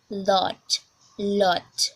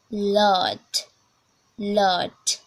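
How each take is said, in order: First: British "lot", teacher's demo; demonstrated British "lot"; British accent. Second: American "lot", open vowel; demonstrated American "lot"; American accent. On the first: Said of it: "we are going to British English first". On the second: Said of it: "American, American accent". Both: Shown as a demonstration.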